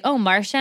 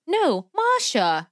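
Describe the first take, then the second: First: The name said as plain English "Marsha"; casual mispronounced "Marsha", R sounded; Lori. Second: Put-on high, slow child correcting in Russian accent; higher, drawn-out Russian-accented "MAH-sha", no R; little girl's put-on accent. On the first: Retold or imitated. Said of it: "Lori was like". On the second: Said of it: "This little, like, four-year-old Hispanic girl".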